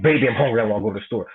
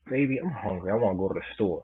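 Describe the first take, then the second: First: It is said in an angry, aggressive tone. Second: It is said in a flirtatious, playful tone. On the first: "Or you could say it angry like you just punched in her face like" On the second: "You could say it flirtatious like"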